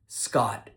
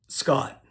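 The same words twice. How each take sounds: First: The final T sound is strongly released. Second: The final T sound is dropped. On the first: "Sometimes she over-enunciated the T sound at the end of my name" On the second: "Did she drop the T sound"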